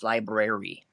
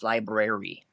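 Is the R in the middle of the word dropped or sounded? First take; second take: sounded; sounded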